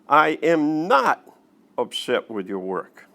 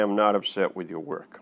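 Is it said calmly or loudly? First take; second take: loudly; calmly. First: It is said louder, with rising intensity. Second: It is said calmly, like conversation.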